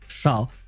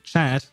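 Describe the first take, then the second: First: It is pronounced the French way. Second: It is pronounced the English way. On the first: A cat. "my French brain also reads chat, which means cat" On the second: An online chat. "I both read chat"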